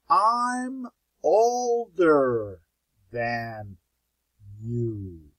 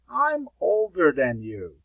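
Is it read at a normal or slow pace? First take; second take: slow; normal. First: It is read at a slow pace. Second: It is read at a normal pace.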